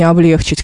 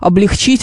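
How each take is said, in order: First: The stress falls on the second syllable. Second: The stress falls on the last syllable. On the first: The speaker calls it wrong. "как многим кажется" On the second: The speaker calls it right. "облегчить, а не"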